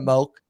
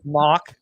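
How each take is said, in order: First: The vowel sounds like the one in 'poke'. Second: The vowel sounds like the one in 'mock'. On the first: The speaker calls it right. "it's Moke" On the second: The speaker calls it wrong. "people mispronounce"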